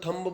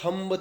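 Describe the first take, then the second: First: A b sound is pronounced at the end. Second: A b sound is pronounced at the end.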